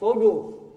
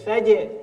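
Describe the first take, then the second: First: The word is pronounced thick and heavy. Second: The word is pronounced thin and light. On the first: The speaker calls it wrong. "Jangan dibaca foju" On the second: The speaker calls it right. "jimnya tipis"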